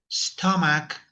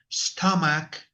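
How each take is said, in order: Both takes have the same delivery.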